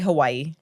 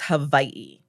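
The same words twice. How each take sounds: First: The middle consonant is a W sound. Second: The middle consonant is a V sound. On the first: This is how mainland speakers say it. "If you're from the mainland, most people say Hawaii" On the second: This is the proper local way to say it. "the very proper way to say it is Hawaii"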